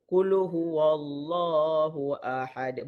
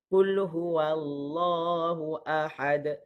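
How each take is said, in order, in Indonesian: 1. Bunyi 'wa' itu tebal, dengan bibir membulat dan dimuncungkan. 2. Bunyi 'wa' itu tipis, dengan bibir terbuka dan tidak membulat. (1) "Bunyinya sedap tapi kaedahnya salah" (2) "fathah kita buka mulut eh"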